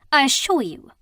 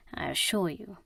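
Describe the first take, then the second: First: Higher, louder cutting assurance; cold retort. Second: Softer, lower confiding assurance; low aside. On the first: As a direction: fling it back at him. Mina retorts coldly. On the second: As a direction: murmur it to the blonde. Faris assures the blonde. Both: Acted.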